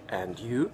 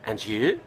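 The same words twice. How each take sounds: First: The d and y are kept apart. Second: The d and y blend together smoothly. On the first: The speaker calls it wrong. "You would never say and you" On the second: The speaker calls it right. "The native speaker would say and you"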